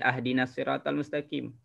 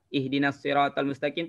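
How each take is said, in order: First: The first word begins with an 'a' vowel. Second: The first word begins with an 'i' vowel. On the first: The speaker calls it wrong. "tak boleh" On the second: The speaker calls it right.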